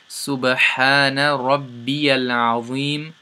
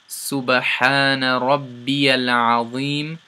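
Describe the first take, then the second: Both takes have the same delivery.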